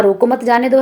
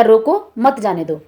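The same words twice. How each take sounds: First: "रोको मत" joined, then "जाने दो"; group as "रोको मत, जाने दो"; comma after मत. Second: "रोको", pause, then "मत जाने दो"; slower, breaking between रोको and मत; comma after रोको. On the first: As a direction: keep रोको and मत together, rise on दो. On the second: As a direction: stress रोको alone, then fall through "मत जाने दो". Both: Shown as a demonstration. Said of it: "comma के माध्यम से दो अर्थ".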